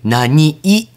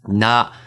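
First: The word ends with an added short clipped 'i'. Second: The word ends plainly on its final syllable. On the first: The speaker calls it right. "ちっちゃいいなんです" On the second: The speaker calls it wrong. "何じゃなくて"

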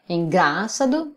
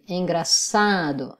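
First: The stress falls off the second-to-last syllable. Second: The stress is on the second-to-last syllable. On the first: The speaker calls it wrong. "on ne dit pas engraçado" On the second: The speaker calls it right. "on dit engraçado, avant dernière syllabe forte"

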